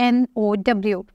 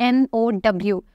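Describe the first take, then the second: No difference in how they are said.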